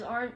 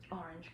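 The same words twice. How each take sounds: First: "orange" clipped to one syllable, "orn"; slurred word. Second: "orange" said fully in two syllables, "or-ange"; corrected word. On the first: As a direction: rush "orange" so it comes out "orn". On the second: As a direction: restart and say "orange" clearly, both syllables. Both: Real, not acted. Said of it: "uh, orange".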